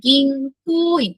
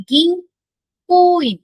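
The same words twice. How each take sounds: First: গিনকোইন slow with long ko; students' model গিনকোইন; repeat model. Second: গিনকোইন very slow with long ko, higher and louder; slow modelled গিনকোইন with long ko; long vowel. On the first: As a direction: say গিনকোইন slowly again with long ko. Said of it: "উচ্চারণটা কি হবে". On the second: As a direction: stretch the ko in গিনকোইন. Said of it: "elongated উচ্চারণ হবে". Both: Shown as a demonstration.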